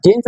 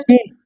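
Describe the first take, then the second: First: जीन्स said with a clear final s; correct jeans. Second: जीन said without the final s, as the wrong form; wrong singular jeen. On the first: Teacher giving students the right form, जीन्स with its s. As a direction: land the s at the end of जीन्स. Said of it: "जीन्स बोलते हैं". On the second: Teacher showing students the wrong form, जीन without s. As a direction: clip it to जीन, no s at the end. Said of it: "जीन नहीं बोलते हैं ना". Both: Shown as a demonstration.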